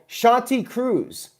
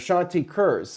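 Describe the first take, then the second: First: The surname sounds like 'Cruz'. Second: The surname sounds like 'Kurz'.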